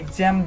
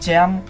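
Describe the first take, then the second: First: The name starts with an 'eks' sound. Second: The name starts with a 'z' sound. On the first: "অনেকেই বলে এক্সাম" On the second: "অনেকেই বলে জ্যাম"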